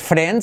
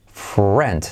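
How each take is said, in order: First: Said in the usual way. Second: Friend said as fru-end, a U glide after the R. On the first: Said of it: "no es friend". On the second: Shown as a demonstration. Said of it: "sino, mírate". (friend con U después de la R)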